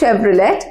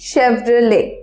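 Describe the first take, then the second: First: The word ends with a sounded t. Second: The word ends without any t sound. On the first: The speaker calls it wrong. "But it's not শেভরলেট" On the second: The speaker calls it right. "It's actually শেভরলে"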